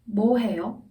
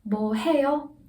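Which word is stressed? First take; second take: 뭐; 해요. First: The stress falls on the question word. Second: The stress falls on the verb. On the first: Asks what exactly the person is doing. "뭐 is stressed, 해요 naturally follows it" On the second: Asks whether the person is doing anything. "뭐 is weaker and 해요 is stronger"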